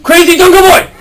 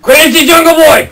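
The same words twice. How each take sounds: First: Loud call across the room; calling from far away. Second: Calling from far away. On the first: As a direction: call out to him, loud and high. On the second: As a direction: shout his name to bring him over. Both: Real, not acted. Calling the boy over.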